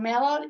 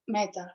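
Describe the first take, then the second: First: The middle consonant sounds like a D. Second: The middle consonant sounds like a T. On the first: "pronounces the T in the middle of the word as D" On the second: "instead of"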